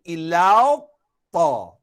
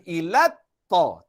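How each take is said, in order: First: "ilau ta" slow, gliding into o before ta; rounded o sound. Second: "ilat ta" with a plain, short a; wrong flat vowel. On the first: Teacher corrects the mistake, "ilau ta" with two o sounds. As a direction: round "ilau" to a long la-o, then o on "ta". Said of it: "Nak masuk dalam ta dah bunyi o". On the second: Teacher shows the mistake, "ilat ta" with unrounded a. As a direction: keep the lat of "ilat ta" unrounded. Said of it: "Bukan ilat ta". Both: Shown as a demonstration.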